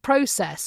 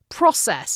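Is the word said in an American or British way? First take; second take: British; American. First: It is said with a British pronunciation. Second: It is said with an American pronunciation. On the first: It is the speaker's original way of saying it. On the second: It is the local way of saying it.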